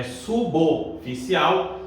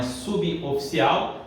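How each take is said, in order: First: "suboficial" slowly as su-bo-ficial; correct pronunciation. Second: "suboficial" as su-bi-o-ficial; wrong pronunciation. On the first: Teacher corrects the mistake, "suboficial" as slow su-bo-ficial. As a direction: link b straight to o in "suboficial". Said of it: "É suboficial". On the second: Teacher warns against the mistake, "suboficial" as subi-oficial. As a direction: put an i after b in "suboficial". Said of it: "não é suboficial". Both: Shown as a demonstration.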